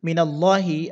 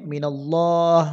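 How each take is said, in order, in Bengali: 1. শব্দটি একটি হ্রস্ব 'i' স্বরধ্বনি দিয়ে শেষ হয়। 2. শব্দটি একটি রুদ্ধ 'h' ব্যঞ্জন দিয়ে শেষ হয়।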